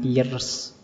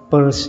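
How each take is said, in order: First: The name is said like the word pierce. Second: The name is said like the word purse. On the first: The speaker calls it wrong. "jangan Pierce" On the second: The speaker calls it right. "Itu bacanya Peirce ya"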